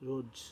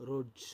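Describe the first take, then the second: No difference in how they are said.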